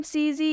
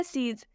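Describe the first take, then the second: First: "सी जी" with the last E voiced as ee; "सी जी", mistakenly adding an ee after the consonant; sounded final E. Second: "सीज" with the last E left silent; "सीज" with long ee and no vowel after the final sound. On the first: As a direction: say "सी जी" in two syllables, ending in ee. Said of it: "नहीं पढ़ेंगे". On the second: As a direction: say "सीज" as one syllable, ending on the consonant. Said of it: "इसका उच्चारण last में नहीं किया जाता". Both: Shown as a demonstration.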